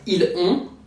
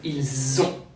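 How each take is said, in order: First: The words are said without a linking Z sound. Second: A Z sound links the two words. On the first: The speaker calls it wrong. "It's not ils ont" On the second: The speaker calls it right. "French put a Z sound after il to do what we call a liaison"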